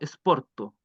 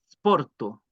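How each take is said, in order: First: An e vowel is added before the s sound. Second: The word starts directly with the s sound. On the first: The speaker calls it wrong. "no esporto" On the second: The speaker calls it right. "no se debe pronunciar en ningún caso una E"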